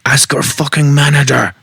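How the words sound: It has a weak, unconvincing French accent. The speaker calls it wrong. "that was a terrible French accent"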